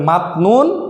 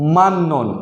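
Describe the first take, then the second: First: The first syllable ends in a t sound. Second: The first syllable ends in an n sound. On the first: This is how it is written. "লেখায় থাকবে মাত নুন" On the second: This is how it is read aloud. "আমাদেরকে পড়তে হবে মান নুন"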